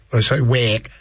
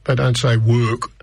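First: A quick Scouse try at "work", the vowel opened to wack; Scouse accent. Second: Said in the usual way. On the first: Shown as a demonstration. Radio host demoing the Liverpool Scouse accent to listeners, Scouse accent on "work". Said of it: "that's my best Scouse". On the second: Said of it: "I can only say when they say".

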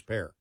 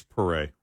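First: PEAR as one syllable, like the fruit; anglicized pronunciation. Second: PARÉ as "puh-RAY", stress on the end; correct French pronunciation. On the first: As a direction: say PEAR flatly English, with no final "ay". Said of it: "every time I heard his name". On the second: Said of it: "By the way, it is". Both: Shown as a demonstration.

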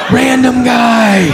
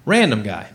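First: High, drawn-out cry of alarm; mock panic. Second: Said in the usual way. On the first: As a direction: stretch it out slowly in hammed-up dread. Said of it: "Now I'm panicked".

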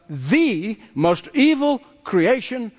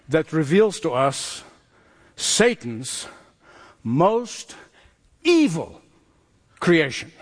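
First: "the" said as a long, stressed "thee". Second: "Satan's... most... evil... creation", a pause after each word; dramatic reveal. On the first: Preacher corrects "one of" to the single worst, stressing "the". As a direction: lean hard and slowly on THE in "the most evil creation". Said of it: "Not one of, no". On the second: Preacher reveals the chapter's villain to the congregation, dramatic pauses. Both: Real, not acted.

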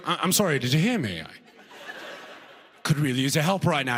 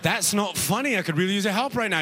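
First: Politely hesitant, lightly British plea; a puzzled Brit asking for help; British accent. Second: Put-on higher, hurried British-accented protest; annoyed British person. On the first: Acted. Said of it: "like a British person". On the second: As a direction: object urgently as a lost Brit. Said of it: "They're like".

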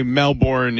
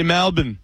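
First: Melbourne with a full "born"; Melbourne, second syllable fully sounded; American pronunciation. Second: Melbourne squeezed to Mel-bn; Melbourne as "Melbun", no R; Australian pronunciation. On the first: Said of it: "we would say Melbourne in the United States". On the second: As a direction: say Melbourne the Aussie way, swallowing the ending. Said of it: "with an Australian accent. They, they, they say Melbourne". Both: Shown as a demonstration.

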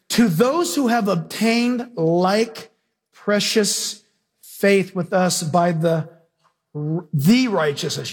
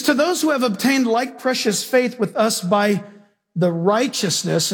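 First: To those who have obtained like precious faith read slowly, stretched out; slow emphatic reading. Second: Said in the usual way. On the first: Shown as a demonstration. Preacher rereading the verse slowly to the congregation, stretched out. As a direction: draw out each phrase slowly so the listeners catch the word. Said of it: "You should circle the word "the". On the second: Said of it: "and stop right there".

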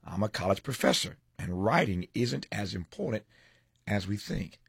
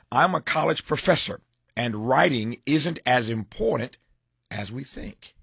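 First: Said in the usual way. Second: Headline teaser. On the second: Acted. Host teasing the professor's editorial, announced headline.

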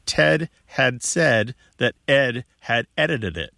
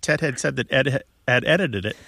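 First: Slow, spaced-out words, each one distinct; slow and careful. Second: Quick, running rhythm on the tongue twister; rhythmic. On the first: Radio host presenting a hard tongue twister to listeners, slow and careful. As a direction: lay out the tongue twister word by word. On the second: Radio host showing a caller the tongue twister's rhythm, quick and rhythmic. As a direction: let the syllables patter along in an even beat. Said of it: "it's got a rhythm". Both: Shown as a demonstration.

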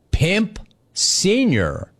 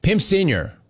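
First: Slow, drawn-out Pimp Senior, high on Senior; slow read-out. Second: Quick repeat with the punch on Pimp; incredulous echo. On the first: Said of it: "Stop you right there". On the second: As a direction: echo "Pimp Senior" as if you can't believe it. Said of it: "You mean my dad?". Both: Shown as a demonstration.

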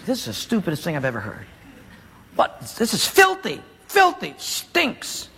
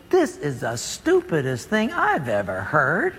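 First: Furious. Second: Lower, slow, scoffing to himself; a muttered sneer at the order; scornful thought. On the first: Acted. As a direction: spit out the disgust under his breath. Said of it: "and he's furious". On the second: Retold or imitated. Naaman scoffing at the prophet's order, low and slow. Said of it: "Naaman thinks".

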